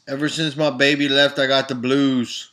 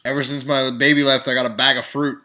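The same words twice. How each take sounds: First: Sung, mock blues lament. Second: Half-sung blues line ending in a punchline; sung, mock blues lament. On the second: Parodying a bluesman singing about a bag of fruit, half-sung. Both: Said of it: "if you're singing the blues".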